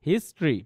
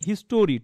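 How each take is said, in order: First: The word is said with two syllables. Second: The word is said with three syllables. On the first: The speaker calls it right. "দুইটা সিলেবলের word" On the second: The speaker calls it wrong. "এটাকে অনেকে কিন্তু বলে"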